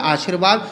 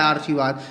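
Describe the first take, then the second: First: "आशीर्वाद" as aa-sheer-vaad, r just before the v; correct r placement. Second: "आशीर्वाद" as aar-shi-vaad, r in the first syllable; misplaced r. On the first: Teacher giving pupils the real word, "आशीर्वाद" as aa-shir-vaad. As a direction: say aashirvaad for "आशीर्वाद", r closing the second syllable. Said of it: "लेकिन शब्द क्या होता है?". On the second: Teacher sounding out the wrongly placed mark, "आशीर्वाद" as aar-shivaad. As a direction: move the r of "आशीर्वाद" before sh: aarshivaad. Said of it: "तो ये क्या है?". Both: Shown as a demonstration.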